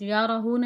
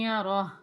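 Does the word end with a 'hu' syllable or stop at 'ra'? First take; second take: hu; ra. First: The word ends with a final 'hu' syllable. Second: The word stops at 'ra' with no final syllable. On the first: The speaker calls it wrong. "या रहू नहीं पढ़ना आपने" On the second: The speaker calls it right. "वक्फ होगा, सांस तो, तोड़ना पड़ेगा"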